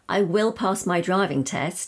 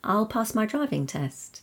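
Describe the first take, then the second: First: I will is said as two full words. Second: I will is contracted to one syllable. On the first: The speaker is determined to pass. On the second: A plain statement of intent.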